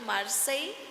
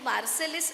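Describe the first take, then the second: First: The name ends with a separate 'a-ee' sound. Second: The name ends with a sounded 'lis'. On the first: The speaker calls it right. "दोन उच्चार आहेत" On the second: The speaker calls it wrong. "असं त्याचं नाव नाही"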